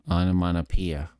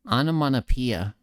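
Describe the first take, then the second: First: "onomatopoeia" with no nasal push, lower; un-nasal, lower-placed "onomatopoeia"; not through the nose. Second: "Onomatopoeia" pushed out through the nose, higher; nasally, higher-placed "Onomatopoeia". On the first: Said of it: "is not speaking through the nose". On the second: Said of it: "the first one was me speaking through my nose". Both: Shown as a demonstration.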